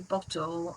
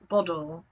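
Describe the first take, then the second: First: It is said in a British accent. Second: It is said in an Australian accent. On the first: "we say bottle" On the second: "you say bottle"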